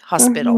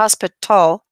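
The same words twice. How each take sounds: First: The middle consonant sounds like a soft D. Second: The middle consonant is a crisp, hard T. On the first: The speaker calls it right. "most times it's pronounced like a very soft D" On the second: The speaker calls it wrong. "I don't say"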